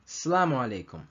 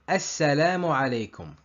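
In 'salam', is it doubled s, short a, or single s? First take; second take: short a; doubled s. First: The long a sound is cut short. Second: The s is doubled and the first a is long. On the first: The speaker calls it wrong. "people omit the sound of the alif" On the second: The speaker calls it right. "The right way is"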